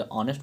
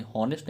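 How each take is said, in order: First: ऑनेस्ट starting straight on the o, h silent; ऑनेस्ट begins on the open o vowel. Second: हॉनेस्ट with a sounded h at the start; हॉनेस्ट spoken with an h sound before the o; wrong pronunciation. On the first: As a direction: say ऑनेस्ट with no h sound, the right way. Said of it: "ऑनेस्ट बोलते हैं". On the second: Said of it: "हॉनेस्ट नहीं बोलते". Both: Shown as a demonstration.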